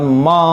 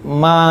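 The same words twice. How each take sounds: First: The syllable sounds heavy, with a darkened vowel. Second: The syllable sounds light, with a clear vowel. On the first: The speaker calls it wrong. "tidak dibaca tebal, bukan ma" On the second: The speaker calls it right. "tetapi ma"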